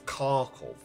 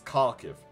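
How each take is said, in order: First: The name ends with an 'ov' sound. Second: The name ends with an 'iv' sound. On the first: This is the name used in the past. "because it's the Russian pronunciation" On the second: This is the name used today. "nowadays it's Kharkiv"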